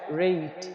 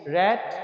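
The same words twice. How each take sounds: First: "रेट" with a gliding "ए-ई", as in English rate; long A vowel. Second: "रैट" with an open "ऐ", as in English rat; short A vowel. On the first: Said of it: "ए ई पढ़ते हैं". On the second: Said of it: "एक बार फिर पढ़ लेते हैं". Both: Shown as a demonstration.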